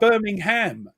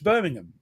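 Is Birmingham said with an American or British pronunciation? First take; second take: American; British. First: It is said with an American pronunciation. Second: It is said with a British pronunciation. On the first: This is how the other person says it. The speaker calls it wrong. "you say Birmingham, and it's not" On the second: This is how the name is really said. The speaker calls it right. "It's Birmingham"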